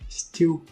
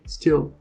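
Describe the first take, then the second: First: The word ends with a W-like vowel sound. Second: The word ends with a clear L sound. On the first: The speaker calls it wrong. "colocar o ui no final. E a gente fala still" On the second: The speaker calls it right. "na verdade se falaria still"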